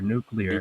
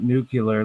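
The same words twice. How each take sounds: First: The ending sounds like clear. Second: The ending sounds like cu-lar. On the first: The speaker calls it right. "it's spelled N U C L E A R, nuclear" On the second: The speaker calls it wrong. "It's not nuclear, like fucking Bill and Ted's Excellent Adventure"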